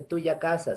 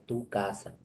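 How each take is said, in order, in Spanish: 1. El posesivo conserva sus sonidos finales completos. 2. El posesivo pierde su sonido final. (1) "No se dice tuya casa" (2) "se dice tu casa"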